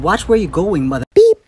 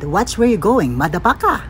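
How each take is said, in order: First: It is said in a Western accent. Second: It is said in a Filipino accent.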